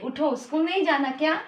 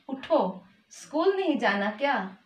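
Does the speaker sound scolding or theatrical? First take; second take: scolding; theatrical. First: It is said in a mildly scolding tone. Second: It is said in a theatrical, dramatic tone. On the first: The speaker calls it right. "थोड़ा डांट के उठाती है।" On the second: The speaker calls it wrong. "ये कुछ नाटकीय हो गया।"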